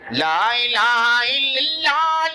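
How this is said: It is said with a Bangladeshi accent.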